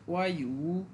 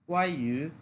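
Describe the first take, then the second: First: The vowel of the second syllable is full. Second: The vowel of the second syllable is light. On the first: The speaker calls it wrong. "অনেকে সহজ করে বলার জন্য এটাকে এভাবেও বলে" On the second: The speaker calls it right. "একবারে হালকা করে"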